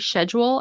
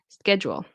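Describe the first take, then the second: First: The word begins with a soft SH sound. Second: The word begins with a hard K sound. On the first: The speaker calls it wrong. "I've heard of people say schedule" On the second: The speaker calls it right. "it's going to be a K sound"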